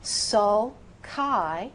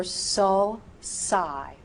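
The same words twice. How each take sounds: First: "Sulci" as "sul-kai", slow and rising; hard C. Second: "Sulci" as "sul-sigh", very slowly; soft C. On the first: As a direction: say "Sulci" with a K sound. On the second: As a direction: say "Sulci" with an S sound. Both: Shown as a demonstration. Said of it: "So, which is correct?".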